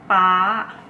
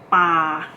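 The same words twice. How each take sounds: First: The pitch is high throughout. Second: The pitch stays level in the middle range. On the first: Dad. "high tone" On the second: To throw. "The first word is the example of middle tone"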